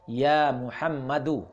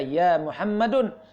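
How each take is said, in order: First: The name ends with a u vowel. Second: The name ends with an n sound. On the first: The speaker calls it right. "tapi dia harus dibaca ya Muhammadu. Tanwinnya menjadi hilang" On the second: The speaker calls it wrong. "dia tidak boleh dibaca ya Muhammadun"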